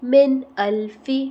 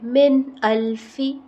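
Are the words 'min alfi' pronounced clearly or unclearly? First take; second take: clearly; clearly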